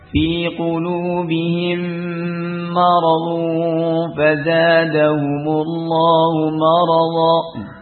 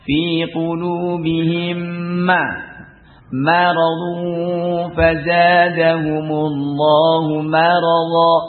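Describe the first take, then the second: First: The m of maradu is heavy and full-mouthed. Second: The m of maradu is light and thin. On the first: The speaker calls it wrong. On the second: The speaker calls it right.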